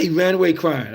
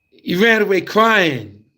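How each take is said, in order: First: Said in the usual way. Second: Hammed-up bawling; mock wail. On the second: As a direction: belt it out like a crying kid. Retelling the kid running off.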